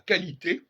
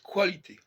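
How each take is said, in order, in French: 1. Le premier son est un k simple. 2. Le premier son est k suivi de w. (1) "en français, on a qualité" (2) "mais les Anglais disent qualité"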